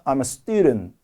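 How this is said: Student is slow and stressed, the rest quick. The speaker calls it right. "student 강조를 주면서 I'm은 슬쩍 빠르게"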